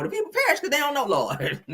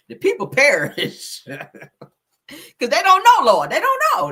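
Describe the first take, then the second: First: Rapid mock preaching. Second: Slow, drawn-out and louder, a preacher's wail with a laugh in it; mock preaching. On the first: Repeats the sermon line fast. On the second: To her viewers about the flyer, mock preaching slowly. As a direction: stretch each word out like a sermon from the pulpit.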